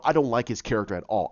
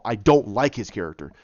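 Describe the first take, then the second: First: Said in the usual way. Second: "don't" hit deliberately, falling away; emphatic restatement. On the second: Real, not acted. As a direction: stress on "don't", lower pitch. Repeats opinion for emphasis.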